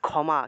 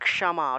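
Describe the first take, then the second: First: The first consonant is not split into k and sh. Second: The first consonant splits into k then retroflex sh. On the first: This is the Bengali way of saying it. "বাংলায় বললে" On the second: This is the Sanskrit way of saying it. "সংস্কৃতে উচ্চারণ করলে হবে"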